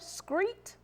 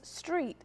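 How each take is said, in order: First: The word begins with an skr sound. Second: The word begins with an str sound. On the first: The speaker calls it wrong. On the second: The speaker calls it right.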